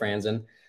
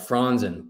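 First: The name is pronounced the American way. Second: The name is pronounced the German way. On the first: This is the pronunciation adapted to life in America. "here we are in the States. So we're gonna go with Franzen" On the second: This is the original family pronunciation. "the actual pronunciation is more like Franzen"

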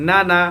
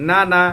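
No difference in how they are said.

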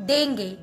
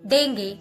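First: It is said with an American pronunciation. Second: The same.

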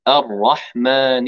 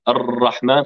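First: The r sound is one single tap. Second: The r sound is trilled with several repeated taps. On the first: The speaker calls it right. "لابد أن نقول راء واحدة" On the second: The speaker calls it wrong. "تكرير الراء تكرار الراء هذا خطأ"

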